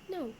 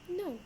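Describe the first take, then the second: First: The pitch falls at the end. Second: The same.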